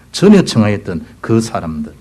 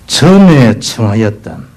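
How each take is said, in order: First: Said in the usual way. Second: 전에 청하였던 stretched slowly, 전에 weighted; slow solemn stress. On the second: Shown as a demonstration. Preacher reading the tragic verse, slow stress on 전에. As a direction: drag 전에 청하였던 out gravely. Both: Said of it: "비극적인 말이죠".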